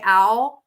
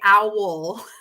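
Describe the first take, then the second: First: The word is said casually, without careful articulation. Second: The word is said with careful, crisp articulation. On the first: The speaker calls it wrong. "I don't say owl" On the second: The speaker calls it right. "I say owl. I'm an enunciator"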